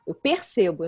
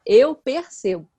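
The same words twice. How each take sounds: First: Said in the usual way. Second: "eu percebo" slow and louder, each word weighted; stress on "eu percebo". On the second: Shown as a demonstration. Correcting an assertion about the other's feelings, emphatic "eu percebo". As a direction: lean hard and slowly on "eu percebo".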